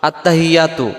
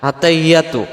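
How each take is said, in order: The two takes are said the same way.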